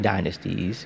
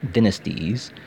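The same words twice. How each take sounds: First: It is said with an American pronunciation. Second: It is said with a British pronunciation. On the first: "But I'm American, I'll say Dynasties" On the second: "why you have a fake British accent for?"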